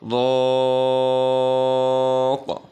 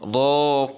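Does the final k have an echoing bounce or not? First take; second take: bounce; no bounce. First: The final k is released with a push. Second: The final sound has no echoing bounce. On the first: The reader stops on this word. "একটু ধাক্কা দিয়ে উচ্চারিত হয়, কলকলা হয়" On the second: The reader continues without stopping. "এখন আমরা যদি না থামি"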